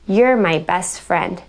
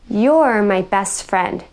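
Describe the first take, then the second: First: The first word is reduced to 'yer'. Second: The first word has a full 'your' vowel. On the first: "you're more often than not going to hear someone say" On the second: "instead of hearing"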